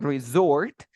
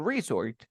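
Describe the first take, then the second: First: Resort said re-ZORT; stress on final syllable. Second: Resort said REE-zort; stress on first syllable. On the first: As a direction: land on the end of resort. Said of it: "La fuerza de voz hasta el final". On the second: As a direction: hit the start of resort. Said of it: "Resort is like the place". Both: Shown as a demonstration.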